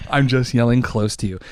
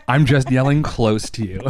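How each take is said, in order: First: Said in the usual way. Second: Said through a laugh. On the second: Real, not acted. Ranter excusing the yelling to the listener, laughing. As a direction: crack up while excusing the yelling. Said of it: "you're feeling like I'm yelling at you".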